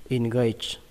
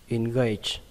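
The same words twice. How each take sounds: No difference in how they are said.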